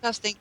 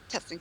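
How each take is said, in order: First: It is spoken very loudly and forcefully. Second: It is spoken quietly in a low voice. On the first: "almost ear blastingly loud" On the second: "you were speaking in a low voice"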